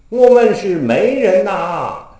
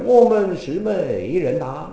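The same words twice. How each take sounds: First: 媒 takes the Beijing-style rising tone. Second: 媒 takes the Huguang-style tone. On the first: The speaker calls it wrong. "这老生里是极不讲究的才怎么念" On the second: The speaker calls it right. "应该是"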